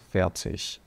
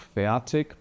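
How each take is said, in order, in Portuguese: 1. O final é pronunciado do jeito do alemão do norte. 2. O final é pronunciado com um som de k do sul. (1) "da metade da Alemanha para cima, todo mundo fala fertig" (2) "esse som de K aqui, ele é mais característico do sul da Alemanha"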